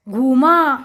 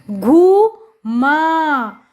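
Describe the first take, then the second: First: Said in the usual way. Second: घू, then माँ, each held long; drawn-out घू … माँ for beginning readers; syllable by syllable. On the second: Shown as a demonstration. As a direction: sound out घू and माँ with a gap. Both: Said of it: "जोड़कर पढ़ेंगे".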